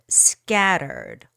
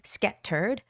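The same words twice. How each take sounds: First: The middle T is soft, not fully released. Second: The middle T is a hard, released sound.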